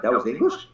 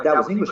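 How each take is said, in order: First: Disbelieving rise on English; baffled echo with a rising end; incredulous question. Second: Said in the usual way. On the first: Retold or imitated. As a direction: ask it in disbelief. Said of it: "I'm like".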